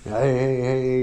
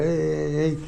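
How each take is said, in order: First: Lightly voiced friendly passersby greeting; casual greeting imitation. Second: "Hey, hey, hey" pitched higher as a light mock of cheery passersby; higher mock greeting. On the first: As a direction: toss off a breezy hey, hey, hey like strangers walking in. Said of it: "It's, it's walking". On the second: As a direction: chirp a higher, sing-song hey, hey, hey. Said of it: "walk in the store and walk back out".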